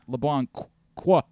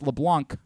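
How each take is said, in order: First: The name ends with an extra 'qua' syllable. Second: The name ends cleanly on 'blanc'. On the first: The speaker calls it wrong. "It's not" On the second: The speaker calls it right. "It's LeBlanc"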